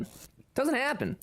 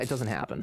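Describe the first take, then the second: First: "It doesn't happen" much higher and slow, like a mock whine. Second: Said in the usual way. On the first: Shown as a demonstration. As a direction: jump much higher and stretch it slowly. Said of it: "mock-dramatic repeat of own line". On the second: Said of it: "first plain take".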